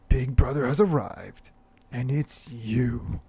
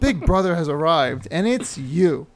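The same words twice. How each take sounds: First: It is read in a foreboding movie-trailer voice. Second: It is read in a plain, normal voice.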